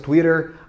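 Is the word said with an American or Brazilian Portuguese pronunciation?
American. It is said with an American English pronunciation. This is the foreign, less common way. "a pronúncia mais americanizada"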